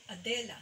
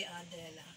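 First: Adela with DE punched, then falling; stress on second syllable. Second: Adela with the weight moved off the middle syllable onto the first; misplaced accent. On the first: Music teacher showing how the name is accented, stress on second syllable. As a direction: hit the middle syllable of "Adela". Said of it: "So the second syllable is accented". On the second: Music teacher showing how the name is not said, misplaced accent. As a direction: take the stress off the DE in "Adela". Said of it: "You don't say Adela". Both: Shown as a demonstration.

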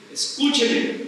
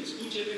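First: Insistent plea. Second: Near-silent, pleading escúcheme; soft plea. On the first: Preacher urging his congregation to listen, forceful. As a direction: hit escúcheme hard with a falling end. Repeated plea, rising again. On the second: Preacher begging his congregation to listen, barely audible. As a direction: drop escúcheme almost to nothing, begging. Repeated plea, dropping away. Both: Real, not acted.

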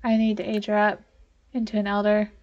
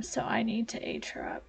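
First: Said in the usual way. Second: Unvoiced whisper, as if keeping a secret. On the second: Real, not acted. Gamer whispering a plan to herself. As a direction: breathe it out in a whisper. Hushed aside while playing.

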